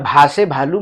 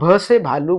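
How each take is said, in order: First: The first syllable has a long vowel. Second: The first syllable has a short vowel. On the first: The speaker calls it wrong. "भा से भालू मत बोलिएगा" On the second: The speaker calls it right. "आप भ से भालू बोल सकते हैं"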